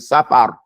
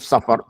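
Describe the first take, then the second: First: The first vowel is an open 'a' sound. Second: The first vowel sounds like English 'suffer'. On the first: The speaker calls it right. "Say safar" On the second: The speaker calls it wrong. "Don't say suffer"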